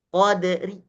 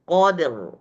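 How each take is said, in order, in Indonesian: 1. R-nya tipis. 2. R-nya tebal. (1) "Tetap jadi tarkik" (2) "Ro-nya tebal"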